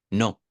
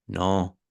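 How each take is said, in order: First: "no" quick and firm, a touch louder; a clipped, curt "no"; short no. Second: "no" stretched, its tune changing slowly; long no. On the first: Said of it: "No es lo mismo decirle". (no corto y seco) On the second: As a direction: draw out "no" so it sounds kinder. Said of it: "la estamos alargando". (no alargado y empático) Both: Shown as a demonstration.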